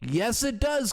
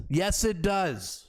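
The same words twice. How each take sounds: First: Said in the usual way. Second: "Yes, it does" drawn out slowly, each word weighted; slow emphatic retort. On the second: Shown as a demonstration. Host retorting to the minister's question, slow and emphatic.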